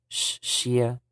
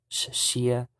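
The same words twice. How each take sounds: Both takes have the same delivery.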